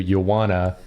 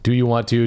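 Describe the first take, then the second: First: The words are partly blended into a shorter form. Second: Every word is pronounced fully and separately.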